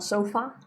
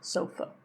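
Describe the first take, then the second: First: The final vowel is full, not reduced. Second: The final vowel is reduced to a schwa. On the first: The speaker calls it wrong. "so not sofa" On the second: The speaker calls it right. "look how closed my mouth is"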